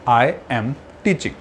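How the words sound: The words are said separately.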